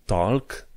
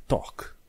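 First: "talk" with the L sounded; wrong pronunciation. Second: "talk" with a silent L; correct British pronunciation. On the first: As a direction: say "talk" with an audible L. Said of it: "Talk nu e talk". ("talk" cu L pronunțat, greșit) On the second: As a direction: say "talk" as "tawk", no L. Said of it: "e talk". ("talk" fără L) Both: Shown as a demonstration.

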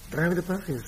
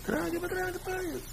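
First: Slightly higher, questioning delivery; acting out the line. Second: Very high, soft falsetto; high mock voice. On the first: Preacher acting out someone twirling payes, slightly higher voice. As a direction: say it higher, in your own voice. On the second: Preacher mimicking talk of twirling payes, tiny falsetto voice. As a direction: squeak it softly, far above your own voice. Same line repeated in falsetto.

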